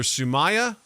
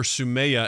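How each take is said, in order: First: "Sumaya" said soo-MY-uh. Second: "Sumaya" said soo-MAY-uh. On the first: Co-host recalling a coworker's name, "Sumaya" as soo-MY-uh. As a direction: say "Sumaya" with an "eye" sound in the middle. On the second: Co-host recalling a coworker's name, "Sumaya" as soo-MAY-uh. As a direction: say "Sumaya" with an "ay" sound in the middle. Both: Shown as a demonstration. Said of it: "either Sumaya or Sumaya".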